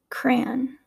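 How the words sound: Said with a non-West Coast regional accent. "And I would say them"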